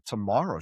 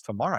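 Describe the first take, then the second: First: Said in the usual way. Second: "Tomorrow" with a questioning rise; retold questioning echo. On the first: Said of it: "I said". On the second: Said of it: "She goes".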